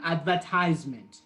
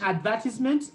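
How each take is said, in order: First: It is said with an American pronunciation. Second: It is said with a British pronunciation. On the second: "The British"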